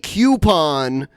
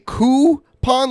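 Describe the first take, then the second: First: The first syllable sounds like 'cue'. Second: The first syllable sounds like 'coo'. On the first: "like C O U pon" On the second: "like C O O pon"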